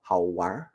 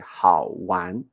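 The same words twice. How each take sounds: First: The word ends with a curled-tongue r sound. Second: The word ends without a curled-tongue r sound. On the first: This is how northern speakers say it. "twist the, the tongue, roll the tongue up" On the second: This is how southern speakers say it. "the southern Chinese people will say 好玩. They don't really pronounce er"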